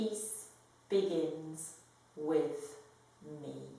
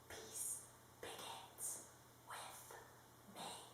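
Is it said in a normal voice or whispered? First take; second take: normal; whispered. First: It is said in a normal voice. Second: It is said in a whisper.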